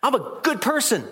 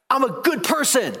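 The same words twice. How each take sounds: First: High, smug "I'm a good person"; mock smug echo. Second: Mock smug boast. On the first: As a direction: tease the self-righteous claim. Mocking echo of boast. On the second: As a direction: sneer out the boast. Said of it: "He didn't say".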